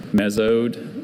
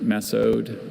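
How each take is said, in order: First: Mesode with a z sound, MEZ-ode; first pronunciation. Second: Mesode with an s sound, MESS-ode; alternate pronunciation. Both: Shown as a demonstration. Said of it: "also mesode or mesode".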